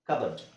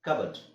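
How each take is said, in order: Both takes have the same delivery.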